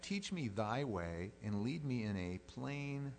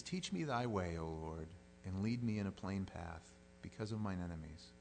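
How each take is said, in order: First: Slow, weighted "Teach me thy way"; emphatic rereading. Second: Said in the usual way. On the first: Shown as a demonstration. Preacher rereading the verse to show it is singular, slowly emphatic.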